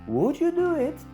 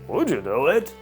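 First: It sounds polite with a questioning tone. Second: It sounds firm, commanding and slightly reproachful. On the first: It is an order from a superior. "uprzejmie i z pytającym tonem" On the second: The listener probably messed things up before. "bardziej rozkazujący, stanowczy. Wtedy would you do it jest taką lekką pretensją"

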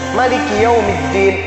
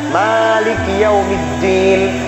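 First: The first vowel of malik is short. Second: The first vowel of malik is long. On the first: This follows another accepted reading tradition. "dibaca pendek" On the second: This follows one accepted reading tradition. "memang dibaca panjang"

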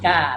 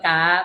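First: The syllable has a falling tone. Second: The syllable has a high tone. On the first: "ถ้าเปลี่ยนเป็นไม้โทก็เป็นเสียงเป็นก้า" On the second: "เปลี่ยนเป็นไม้ตีก็กา"

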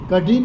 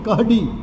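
First: The middle consonant is a single dh sound. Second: The middle consonant is h followed by d. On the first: This is the standard form, not used in the dialect. "કઢી નહીં" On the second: This is how the dialect says it. "ઢની જગ્યાએ હ અને ડ"

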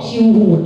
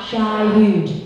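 First: The first syllable has a short 'i' vowel. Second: The first syllable has a long 'eye' vowel. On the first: The speaker calls it wrong. "ห้ามเสลือบ้องบกชิวหูดนะคะ" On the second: The speaker calls it right. "อ่านว่า"

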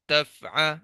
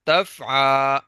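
First: The final vowel is kept short. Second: The final vowel is stretched out long. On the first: The speaker calls it right. "اب اس سے زیادہ لمبا نہیں کرنا" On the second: The speaker calls it wrong. "تفع ایسے کر کے بالکل نہیں پڑھنا"

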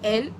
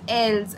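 First: The word ends without any s sound. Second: The word ends with an audible s sound. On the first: The speaker calls it right. "l only" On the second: The speaker calls it wrong. "I will not say"

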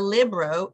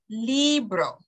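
First: The first vowel is a short 'ih' sound. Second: The first vowel is an 'ee' sound. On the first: The speaker calls it wrong. "It's not a libro" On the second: The speaker calls it right. "it's a libro. A-E-I. That's the E"

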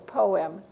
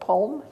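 First: The word is said as two syllables. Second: The word is said as one syllable. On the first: The speaker calls it right. "it's poem" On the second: The speaker calls it wrong. "the O-E saying, oh, is it poem? No"

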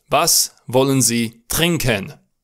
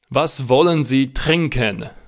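The two takes are said the same way.

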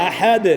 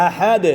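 No difference in how they are said.

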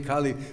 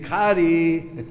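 First: The middle consonant is an L sound. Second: The middle consonant is an R sound. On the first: "we don't say Kali" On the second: "they mix their R's and L's, so we don't say Kali, we say Kari"

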